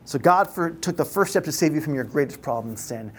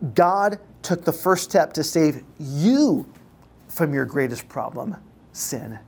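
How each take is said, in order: First: The word you carries no special stress. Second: The word you carries the main stress.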